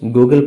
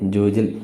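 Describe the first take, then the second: First: The word begins with a hard G sound. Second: The word begins with a J sound. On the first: The speaker calls it right. "ഗൂഗിൾ പേ എന്ന് തന്നെ പറഞ്ഞാൽ മതി" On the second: The speaker calls it wrong. "ജൂജിൽ എന്ന് പറയണ്ട"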